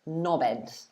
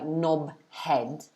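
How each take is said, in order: First: The H sound in the middle is dropped. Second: The H sound in the middle is pronounced. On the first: "lots of people normally drop the H when they say it" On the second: "difficult to pronounce the B at the end of knob and the beginning of the next word, H, together"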